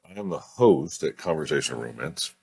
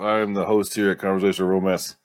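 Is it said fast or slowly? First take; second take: slowly; fast. First: It is said slowly. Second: It is said fast.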